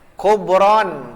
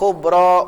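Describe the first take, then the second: First: The word ends with an added n sound. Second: The word ends on a vowel, without n. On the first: The speaker calls it wrong. "tidak boleh" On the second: The speaker calls it right. "Tapi harus begini"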